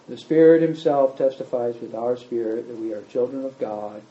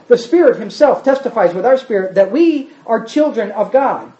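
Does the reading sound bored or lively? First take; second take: bored; lively. First: It is read in a flat, bored tone. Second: It is read in a lively, engaged tone. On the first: The writer does not care about this. The speaker calls it wrong. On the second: The writer is excited about this. The speaker calls it right.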